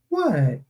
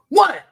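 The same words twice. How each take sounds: First: The tone sounds curious and interested. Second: The tone sounds sharp and displeased.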